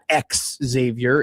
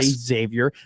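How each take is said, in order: First: The name begins with a 'ks' sound. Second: The name begins with a 'z' sound. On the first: The speaker calls it wrong. "we were taught it's not X Xavier" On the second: The speaker calls it right. "you just say Xavier"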